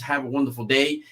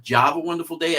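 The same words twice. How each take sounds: First: Said in the usual way. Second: "Java" said with a hard English J; "Java" starting on a J, not an H; mispronounced channel name. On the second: Shown as a demonstration. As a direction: say "Java" with a J sound in place of "Have a". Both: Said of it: "It's not Java Wonderful Day".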